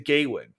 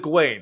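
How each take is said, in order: First: The first part sounds like the word 'gay'. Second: The first part sounds like a short 'guh'. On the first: The speaker calls it wrong. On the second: The speaker calls it right. "now it's the Gawain, of course"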